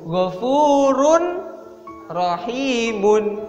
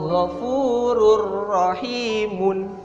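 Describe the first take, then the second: First: The n is pronounced clearly before the r. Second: The n merges into a doubled r sound. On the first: "Yang awalnya sebenarnya dibacanya itu" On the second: "Di sini ada Ghafurur Rahim atau Ghafurur Rahimun"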